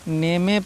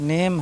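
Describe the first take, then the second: First: A vowel sound is added after the final m. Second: The word ends on the m with no vowel. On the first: The speaker calls it wrong. "तो ये नहीं करना है आपको" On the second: The speaker calls it right. "Word के last में कहीं भी ई आ जाए साइलेंट होता है"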